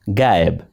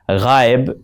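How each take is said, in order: First: It begins with a plain, hard g sound. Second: It begins with a throaty, fricative gh sound. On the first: This is how Hindi speakers say it. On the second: This is the Urdu pronunciation.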